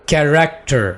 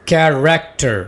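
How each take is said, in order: Both takes have the same delivery.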